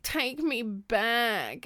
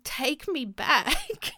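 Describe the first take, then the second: First: Slow, dragged-out caption read; mock wistful caption. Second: High, slow, dreamy sigh of a caption; mock wistful caption. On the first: Mocking the caption again, slow and dragged. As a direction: stretch it out wistfully. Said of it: "I hate". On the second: Mocking a nostalgic TikTok caption, slow and dreamy. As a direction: drawl it like a nostalgic post. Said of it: "I hate the caption".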